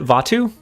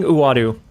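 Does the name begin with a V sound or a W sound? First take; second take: V sound; W sound. First: The name begins with a V sound. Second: The name begins with a W-like sound. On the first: The speaker calls it wrong. "is that a V?" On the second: The speaker calls it right. "I've been saying Uadu"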